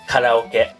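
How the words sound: It is said with a native Japanese pronunciation. The speaker calls it right. "if I say karaoke in real Japanese"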